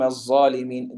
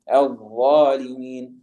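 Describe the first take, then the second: First: The word begins with a plain z sound. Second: The word begins with an emphatic dh sound. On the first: The speaker calls it wrong. "This is incorrect" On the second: The speaker calls it right. "It should be recited as"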